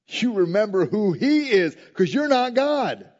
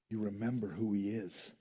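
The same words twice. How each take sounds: First: Loud, high, emphatic declaration; forceful preaching. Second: Very soft, low-pitched reminder; hushed answer. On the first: Preacher reminding the congregation they are not God, forceful and loud. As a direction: raise the voice and drive it home. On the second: Preacher answering what to do when prayer fails, hushed and low. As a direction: drop right down, almost to yourself. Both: Real, not acted.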